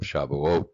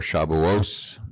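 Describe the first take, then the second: First: The word ends with a t sound. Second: The word ends with an s sound.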